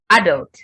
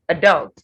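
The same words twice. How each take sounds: First: It is said in a British accent. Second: It is said in an American accent. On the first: "for British pronunciation" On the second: "for American"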